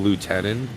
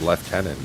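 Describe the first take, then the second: First: The first syllable is said as 'loo'. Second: The first syllable is said as 'lef'. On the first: "instead of lieutenant" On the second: "English people say lieutenant"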